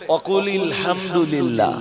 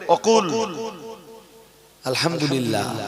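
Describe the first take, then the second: First: The words are linked into one continuous stretch. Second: The words are said separately with a break. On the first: "একসাথে পড়লে" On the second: "আলাদা আলাদা করে পড়লে"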